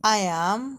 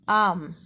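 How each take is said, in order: First: It is said as two full separate words. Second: It is contracted into a single syllable. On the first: "جوجهم النطق ديالهم صحيح" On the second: "بالصيغة المختصرة"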